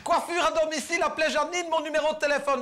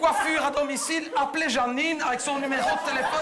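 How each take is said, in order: First: Quoting it back higher, teasing; mock-quoting the sign. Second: Reading the sign out, voice high. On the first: Teasing the neighbour about her roof sign, high mocking quote. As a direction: throw her words back at her. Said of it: "Qu'est-ce que t'as écrit?". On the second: Retold or imitated. Reading the roof sign to the audience, mock ad voice. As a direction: announce it like an ad. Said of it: "reading the neighbour's roof sign".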